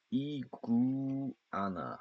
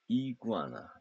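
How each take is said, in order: First: 이구아나 stretched out slowly, each syllable apart. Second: Said in the usual way. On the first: Shown as a demonstration. Teacher drilling the word for students, slow and separated. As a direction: spell out 이구아나 slowly, one syllable at a time. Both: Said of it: "그다음에".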